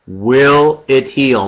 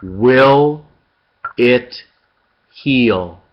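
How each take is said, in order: First: Will it heal said slowly as one phrase with the stress on will; one slow phrase that leans on will; unhurried question with a falling end; slow, joined. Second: Each word set apart by a pause; will, it, heal spaced slowly. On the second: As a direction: drop each word separately, letting heal fall. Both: Shown as a demonstration. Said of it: "The question is".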